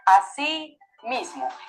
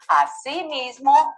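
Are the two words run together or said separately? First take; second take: separate; joined. First: The two words are said separately, more slowly. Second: The two words are run together, more quickly. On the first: It means in the same way. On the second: It means also or in addition.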